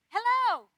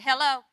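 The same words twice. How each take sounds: First: The greeting sounds warm and welcoming. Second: The greeting sounds curt and impatient. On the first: The speaker is glad to talk. "Everything's good" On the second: The speaker is busy and wants to hang up. "You're saying, get off the phone, I'm busy"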